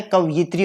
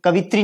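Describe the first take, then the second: First: कवयित्री with a "yi" glide; correct form. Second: कवित्री as three syllables, ka-vi-tri; incorrect form. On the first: Teacher correcting the word, कवयित्री with clear "yi". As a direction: sound the y in कवयित्री, ka-va-yi-tri. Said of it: "कवयित्री होता है". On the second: Teacher rejecting the error, कवित्री without the "yi". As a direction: say कवित्री without any y glide. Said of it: "कवित्री नहीं होता है". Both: Shown as a demonstration.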